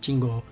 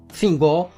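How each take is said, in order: First: The name begins with a plain T sound. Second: The name begins with an F-like sound. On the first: It follows the Portuguese reading of the name. The speaker calls it right. "a gente tá lendo em português" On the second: It follows the original, non-Portuguese reading of TH. The speaker calls it wrong. "no T H não fala assim? Meio F?"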